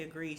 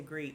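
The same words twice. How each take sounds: First: Said in the usual way. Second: "agreed" said as 'greed, without the opening a; dropped first vowel. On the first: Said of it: "She ain't say agreed". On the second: Shown as a demonstration. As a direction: drop the a at the start of "agreed". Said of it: "She said agreed".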